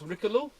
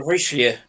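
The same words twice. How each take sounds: First: Richelieu said the English way, like "Rick-a-loo"; English-style Richelieu; anglicized Richelieu. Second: Richelieu said the French way, "Reesh-uh-lyeu"; French-style Richelieu. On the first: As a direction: say Richelieu with a hard K sound and an English ending. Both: Real, not acted. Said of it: "difference in how you pronounce your French".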